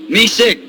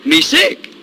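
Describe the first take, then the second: First: Said in the usual way. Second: "Me sick" said high with a rising end; high rising take. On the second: Retold or imitated. Stubborn chief answering again, high and rising.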